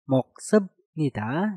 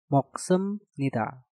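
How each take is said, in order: First: A b sound comes before nida. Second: An m sound comes before nida. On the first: The speaker calls it wrong. "untuk contoh yang pertama ada moksebnida" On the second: The speaker calls it right. "biopnya harus kita rubah suaranya menjadi miem, maka menjadi moksemnida"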